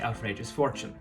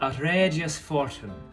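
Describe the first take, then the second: First: The suffix is reduced, as in modern speech. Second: The suffix is pronounced fully, as spelled. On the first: "where we would say" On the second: "suffixes were still pronounced the way they're spelled"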